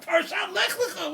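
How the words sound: It is said in an excited, eager tone.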